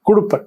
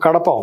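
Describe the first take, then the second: First: It is said as 'kudup', ending in a consonant. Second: It is said as 'kadapa', ending in a vowel. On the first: This is how the British said it. "British వారు దాన్ని కుడుప్ అని పలికేవాళ్ళు" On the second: This is the local way of saying it. "మనకు కడప ఉంది"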